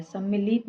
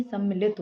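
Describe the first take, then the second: First: सम्मिलित with a lengthened i; mistaken long vowel. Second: Said in the usual way. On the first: Shown as a demonstration. Teacher showing students an error, mistaken long vowel. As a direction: stretch the i in सम्मिलित. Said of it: "नहीं". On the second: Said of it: "होता है".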